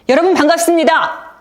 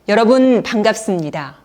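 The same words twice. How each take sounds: First: It is said quickly and forcefully. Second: It is said slowly and softly. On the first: "굉장히 빠르고 힘 있는 소리가 나왔습니다" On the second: "훨씬 톤이 안정이 되면서 부드러운 소리 그리고 느린 목소리"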